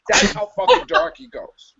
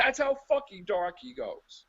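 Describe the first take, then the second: First: Louder, punched "fucking" in "That's how fucking dark he goes"; emphatic punchline. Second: Softer, laughing through "That's how fucking dark he goes"; laughing repeat. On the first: Ranting to his co-host, loud emphatic punchline. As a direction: slam "fucking" louder and fall hard on "goes". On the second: Repeating the punchline to his laughing co-host, through a laugh. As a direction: say it again, giggling, softer. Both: Real, not acted.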